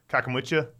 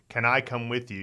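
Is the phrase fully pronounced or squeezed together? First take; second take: squeezed together; fully pronounced. First: The first words are squeezed into one quick word. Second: Each word is pronounced separately and fully. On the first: "You just go" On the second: "you would say"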